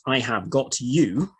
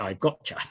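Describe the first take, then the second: First: Each word is said fully and separately. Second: The words are said quickly and run together.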